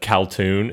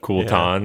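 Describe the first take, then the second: First: The second syllable sounds like 'toon'. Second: The second syllable sounds like 'tan'. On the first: The speaker calls it wrong. "I just said it wrong" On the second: The speaker calls it right. "instead of Kul'tan"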